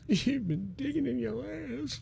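It is said in a sad tone.

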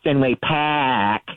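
It is said with an R-dropping Boston accent.

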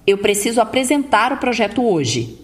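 The pitch stays level and firm at the end.

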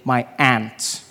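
It is said in an American accent, like 'ant'.

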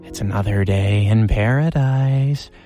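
It is said in a Joker-like voice.

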